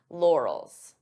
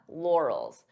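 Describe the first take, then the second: First: The two syllables are joined smoothly. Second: The same.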